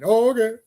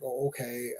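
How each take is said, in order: First: Higher, louder startled okay; mock surprise. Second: Lower, much softer unimpressed reply; deadpan okay. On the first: Fan voicing the guy's startled agreement, higher and louder. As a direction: act caught off guard. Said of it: "it's like". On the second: Retold or imitated. Fan voicing a bored crowd after a weak beatdown, low and flat. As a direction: let it fall flat, unimpressed. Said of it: "It's like".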